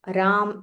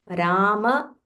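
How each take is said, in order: First: The word ends on the m, no final vowel. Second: The word ends with a full final a vowel. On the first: This is the Hindi way of saying it. The speaker calls it wrong. "In Hindi, Ma will be pronounced as Ram" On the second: This is the Sanskrit way of saying it. The speaker calls it right. "here in Sanskritam, we have to say the full Ma"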